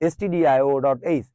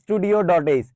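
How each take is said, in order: First: Stdio is not pronounced like studio. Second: Stdio is pronounced like the word studio. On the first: The speaker calls it right. "এটা আসলে স্টুডিও না" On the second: The speaker calls it wrong. "এটারে অনেকে স্টুডিও বলে থাকে"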